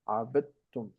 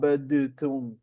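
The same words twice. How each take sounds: First: The d merges smoothly into the following t. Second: The d is released with a bounce before t. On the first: The speaker calls it right. "So you merge them into abadtum" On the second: The speaker calls it wrong. "You don't say"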